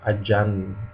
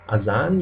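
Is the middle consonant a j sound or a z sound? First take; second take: j sound; z sound. First: The middle consonant is a j sound. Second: The middle consonant is a buzzing z sound. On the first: "a lot of people say ajan" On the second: "Z is pronounced like in English"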